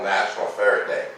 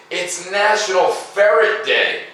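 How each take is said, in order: First: Said in the usual way. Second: Big announcement. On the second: Acted. Announces the day.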